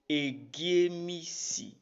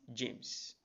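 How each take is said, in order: First: The name begins with an added vowel sound. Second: The name begins with a consonant sound. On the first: This is how an Edo speaker says the name. "an average Edo man says Egiemisi" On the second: This is the English way of saying the name. "not James"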